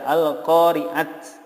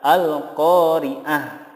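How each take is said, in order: First: The word ends with a bare t sound. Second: The word ends with a soft h sound. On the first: The speaker calls it wrong. "tidak diboleh dibaca al-qari'at ya" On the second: The speaker calls it right. "tetapi yang benar adalah al-qari'ah"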